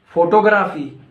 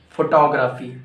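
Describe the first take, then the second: First: "Photography" louder, as FOE-toe-GRAF-ee; wrong PHOTOGRAPHY. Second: "Photography" as fo-TOG-ra-fee; corrected PHOTOGRAPHY. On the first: Teacher quizzing learners on "Photography", loud FOE-toe-GRAF-ee. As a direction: say "Photography" like photo plus graphy. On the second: Teacher correcting learners, "Photography" said as fo-TOG-ra-fee. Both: Shown as a demonstration. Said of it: "No, it's incorrect".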